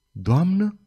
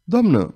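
First: „Doamnă?" lifted higher into a surprised question; startled echo. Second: Said in the usual way. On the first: A narrator's reading. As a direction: echo „Doamnă?" as if caught off guard, rising at the end. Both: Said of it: "repetă Saizuma tresărind".

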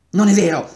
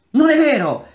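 First: Loud stubborn denial. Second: Very high, loud shout of denial; shrill desperate cry; anguished denial. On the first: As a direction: insist through clenched resolve. Atarva denies again, losing ground. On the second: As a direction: scream it to block out the truth. Atarva denies his true past. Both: A narrator's reading.

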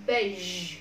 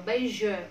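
First: "Beige" ending on a held "zh" buzz; correct final consonant. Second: "beige" as two syllables, "bei-zhuh"; mispronounced with extra vowel. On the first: Teacher modelling the right way, "Beige" ending in pure "zh". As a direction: say "Beige" as one syllable, no vowel after "zh". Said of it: "chỉ phát âm là âm Z thôi". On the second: Teacher showing the class what to avoid, "beige" plus "uh". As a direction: tack an "uh" onto the end of "beige". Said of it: "không được đọc là beige". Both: Shown as a demonstration.

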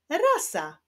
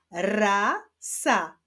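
First: Said in the usual way. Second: "rasa" slowly, as two long syllables with a gap; syllables held apart. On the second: Shown as a demonstration. Teacher joining coloured syllables into a word, "rasa" read apart. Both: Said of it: "poprzez połączenia sylab żółtych".

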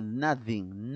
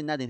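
First: Tongue between the teeth for the th in "nothing"; correct pronunciation. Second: "nothing" with a t sound for the th; hard t in the middle of "nothing"; wrong pronunciation. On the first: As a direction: model "nothing" clearly with a true th. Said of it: "se dice nothing". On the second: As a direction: say "nothing" like "nating", as a mistake. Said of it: "No se dice nothing". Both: Shown as a demonstration.

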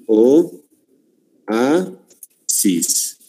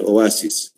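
First: "O, A, sis" as three separate beats; split into syllables. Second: Said in the usual way. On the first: Shown as a demonstration. Teacher separating the word for the class, "O, A, sis" syllable by syllable. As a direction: pause after each syllable of "O, A, sis". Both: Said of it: "vamos a separar".

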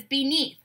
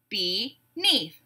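First: Said in the usual way. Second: "Beneath" split in two, be-neath; two separate beats on "Beneath" with a gap; syllable by syllable. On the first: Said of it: "I'll say a word". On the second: Shown as a demonstration. Teacher breaking a word into syllables, beat by beat. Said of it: "we'll break it into syllables".

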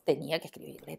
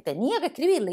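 First: Said in the usual way. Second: "escribirle" said higher and louder; stress on escribirle. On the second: A narrator's reading. Narrator to children, repeating "escribirle" with higher, louder insistence.

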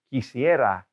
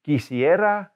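First: Said in the usual way. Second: "Quisiera" said higher, clearly; raised model of "Quisiera"; model word. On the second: Shown as a demonstration. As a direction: present "Quisiera" brightly to students. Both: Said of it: "I would like a lot of money".

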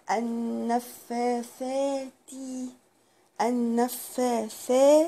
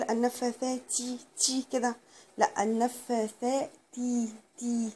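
First: النفاثات ending in a crisp t without air; clean final t. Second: النفاثات تي with a breathy puff on the t; wrong aspiration. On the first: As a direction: stop the t cleanly. (نطق صحيح للتاء بدون هواء) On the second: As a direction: let air burst out on the final t. (نطق خاطئ بهواء على التاء) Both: Shown as a demonstration. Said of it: "بلاش اطلع هوا في التاء".

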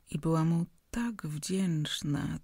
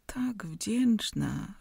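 First: Said in the usual way. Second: "tak wdzięczna" drawn out very slowly, "tak" rising; lingering emphasis. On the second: A narrator's reading. Repeated phrase, stretched. (powoli przeciągnięte "tak wdzięczna", wznoszące "tak")

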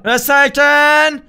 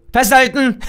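First: Slow, stretched "Festhalten"; drawn-out hold on. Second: Said in the usual way. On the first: Real, not acted. Gamer bracing on the swing, slow and stretched. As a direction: stretch "Festhalten" out slowly, every syllable long.

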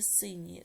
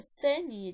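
First: "синіє" with a clear И; pronounced with И. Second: "Синіє" with E replacing the И; pronounced with E. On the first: Teacher offering pupils a spelling choice, "синіє" with И. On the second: Teacher offering pupils a spelling choice, "Синіє" with E. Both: Shown as a demonstration. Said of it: "яку букву Е чи И".

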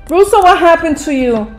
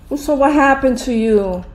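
First: "Russo, what happened to you?" called out loud and higher in shock. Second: Said in the usual way. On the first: Real, not acted. Gamer shouting at Russo in shock, loud. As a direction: yell Russo's name in alarm.

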